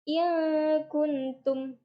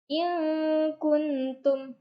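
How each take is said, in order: First: The n is hidden in a held nasal hum. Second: The same.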